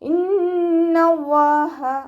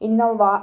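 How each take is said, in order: First: The h sound is clearly breathed out. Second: The h sound turns into a glottal catch. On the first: The speaker calls it right. "അതുപോലെ ഓതുക" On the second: The speaker calls it wrong. "ഹംസയുടെ സൗണ്ടായി പോവാതെ നോക്കുക. ഇന്നവ്വാ നോതരുത്"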